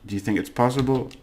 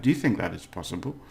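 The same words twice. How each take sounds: First: Said in the usual way. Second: "that" spoken out inside a quick question; full form with "that". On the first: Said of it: "You would talk like that". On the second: Shown as a demonstration. Teacher showing phrasing few would use, careful full form. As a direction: say "that" in full before "it's possible". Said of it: "Maybe if you're posh".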